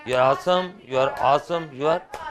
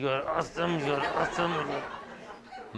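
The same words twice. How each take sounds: First: Fond, affectionate praise to a partner; said lovingly. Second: Mock resentful praise through a chuckle; imitating a boy venting his spite, laughing; grudging. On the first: Shown as a demonstration. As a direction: say it like you truly mean the compliment. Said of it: "सभी लोग बड़े प्यार से बोल रहे हैं". (प्यार से बोला गया) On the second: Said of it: "एक लड़का बड़ी खुंदक निकाल रहा है". (खुंदक निकालते हुए, हँसते हुए नकल)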